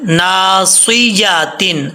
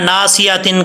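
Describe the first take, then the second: First: The 'ya' sound is pronounced clearly. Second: The 'ya' sound is blurred and unclear. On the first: The speaker calls it right. "इस या को भी क्लियर करना है" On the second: The speaker calls it wrong. "ऐसे नहीं पढ़ना"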